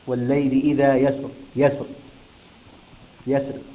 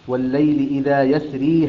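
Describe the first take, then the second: First: The last word ends without the 'ee' vowel. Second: The last word ends with a long 'ee' vowel. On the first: The reciter stops at this word. "وإذا وقف عليها يقرأ بالحذف" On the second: The verse is joined to what follows. "إذا وصلها بما بعدها"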